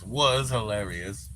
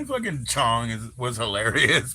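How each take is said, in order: First: Slow, stressing "Was" to fix the tense; corrected word. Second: Said in the usual way. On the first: Shown as a demonstration. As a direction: slowly put weight on "Was". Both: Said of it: "I won't say is".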